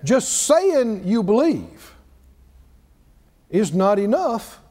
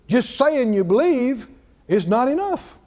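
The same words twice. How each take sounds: First: It is said very slowly. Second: It is said at a normal speed.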